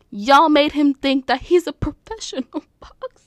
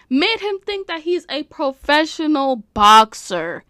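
First: Loud start breaking into laughter; incredulous, dissolving into laughter; cracking up. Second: Higher, louder, each word hammered; loud, pitched-up exasperation; loud disbelief. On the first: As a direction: lose it laughing by the last word. Cracks up while scolding fans. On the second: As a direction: hammer out "professional boxer" incredulously. Repeats line in loud disbelief. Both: Real, not acted.

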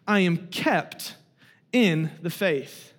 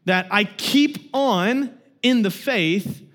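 First: "I am kept in the faith" slow and a bit softer; preacher leaning on "kept"; emphatic. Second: "keep on in the faith" spoken slowly with weight; preacher stressing "keep on"; emphatic. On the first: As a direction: drop into "kept" deliberately, hushed. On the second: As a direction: lay down "that I keep on in the faith" deliberately. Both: Acted. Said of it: "slow emphatic doctrinal contrast".

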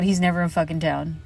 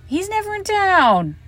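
First: Said in the usual way. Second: Much higher, exasperated. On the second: Real, not acted. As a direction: pitch it way up in disbelief. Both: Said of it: "repeated with emphasis".

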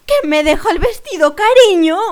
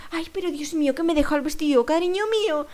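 First: Very loud, high mock panic; shouting. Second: Mild lament, lifting at the end; acted fretting. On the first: Older woman to a stranger about her forgotten dress, shouting. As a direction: yell it at a stranger as if disaster struck. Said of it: "me mira y, y grita". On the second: Older woman to a stranger about her forgotten dress, mild lament. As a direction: wail lightly, without shouting.

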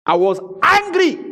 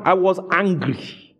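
First: Much higher, punched ANGRY. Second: Said in the usual way. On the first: Retold or imitated. Pastor retelling his stand, emphatically angry. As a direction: hit ANGRY high and hard, retelling it.

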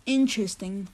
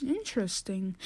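First: Low, quiet, doubtful interesting; suspicious. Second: Dry suspicion. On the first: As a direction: say it like you don't buy it. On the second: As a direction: lower and much softer, pointed. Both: Acted. Skeptical host.

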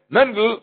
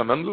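First: Higher-pitched call to someone far off; raised calling voice. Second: Low, softer address; lowered, close-range voice; speaking to someone near. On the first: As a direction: call the name out to someone at a distance. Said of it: "איך שריי". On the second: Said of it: "איינער איז נאנט צו מיר". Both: Shown as a demonstration.

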